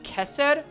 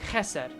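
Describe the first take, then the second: First: The word starts with a clean, hard K sound. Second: The word starts with a raspy, throaty sound. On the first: The speaker calls it wrong. "It's pronounced Kesed?" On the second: The speaker calls it right. "there's a bit of phlegm on it"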